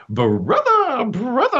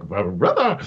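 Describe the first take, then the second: First: High, delighted little-brother greeting; overjoyed little brother. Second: Said in the usual way. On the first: Retold or imitated. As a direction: sing out brother like an eager kid. Brother greets depressed Wayne warmly.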